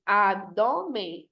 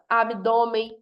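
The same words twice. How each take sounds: First: "Abdômen" very slowly, broken into syllables. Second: Said in the usual way. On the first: Shown as a demonstration. Teacher counting three syllables, Abdômen slowly split up. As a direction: split Abdômen into drawn-out beats. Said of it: "Trissílaba". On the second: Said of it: "três".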